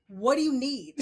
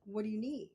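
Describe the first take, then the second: First: Loud, higher, impatient mock demand; exaggerated brusque question, much louder; brusque old manner. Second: Easy, even, patient question; relaxed offer of help, no push; gentler new manner. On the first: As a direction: demand it like your old hard self. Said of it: "that was not cool". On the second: Retold or imitated. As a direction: ask it calmly, ready to listen. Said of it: "now it's more along the lines of".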